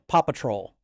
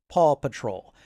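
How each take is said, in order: First: The name is said fast, sounding like Papa Troll. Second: The name is said carefully, each word distinct. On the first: This is how little kids say the name. "they're just saying it really fast, and they're almost it's it's almost like they're saying Papa Troll" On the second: This is how an adult says the name. "I pronounce it Paw Patrol"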